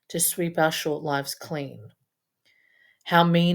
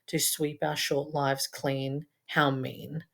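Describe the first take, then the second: First: There is a pause after 'clean'. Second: It runs on with no pause after 'clean'. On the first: "Or you take a pause" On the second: "you can read it in this line"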